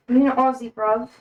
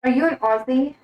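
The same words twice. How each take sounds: First: Light mock British accent; playful, roughly British-sounding question; attempted British accent. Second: Said in the usual way. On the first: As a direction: try out a casual British accent. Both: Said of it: "I feel like that was a British accent".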